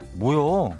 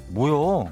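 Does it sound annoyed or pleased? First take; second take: annoyed; annoyed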